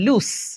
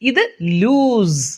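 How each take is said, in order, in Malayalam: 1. ഈ വാക്ക് ചീറുന്ന s ശബ്ദത്തിലാണ് അവസാനിക്കുന്നത്. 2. ഈ വാക്ക് മൂളുന്ന z ശബ്ദത്തിലാണ് അവസാനിക്കുന്നത്. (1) "ആദ്യം പറഞ്ഞത് സ് എന്നാണ്" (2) "അതായത് ഇസഡ് ആണ് അവിടെ അവസാനം"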